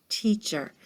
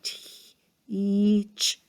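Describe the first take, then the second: First: Said in the usual way. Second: "Teacher" broken into its first sounds, t-ch; sounding it out. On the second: Shown as a demonstration. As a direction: sound out "Teacher" slowly for the kids. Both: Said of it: "could it match my word?".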